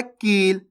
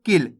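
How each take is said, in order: First: कील with a long, stretched ee; drawn-out vowel. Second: किल with a clipped short i; quick short vowel. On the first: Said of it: "खींच के हो रहा है". (कील को खींच के, बड़ी ई के साथ) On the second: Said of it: "जल्दी से हो रहा है". (किल को जल्दी से, छोटी इ के साथ) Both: Shown as a demonstration.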